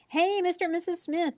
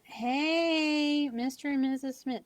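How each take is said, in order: First: It is said with lively, upbeat energy. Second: It is said with flat, dragging low energy.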